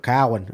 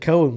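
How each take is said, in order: First: The name is said in a Boston Yankee accent. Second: The name is said in a plain, non-Boston accent. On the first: "in that Yankee voice we go Cowan" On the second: "I always said Cohen"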